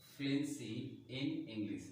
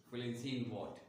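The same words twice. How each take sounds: First: "fluency in English" stretched out very slowly, word by word; slow dictation. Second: Said in the usual way. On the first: Shown as a demonstration. Teacher showing students the phrase, slow and deliberate. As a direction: draw out "fluency in English" as if writing it down. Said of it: "मैंने अलग अलग word pronounce किया". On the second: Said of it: "ये चीज़ जानना ज़रूरी है".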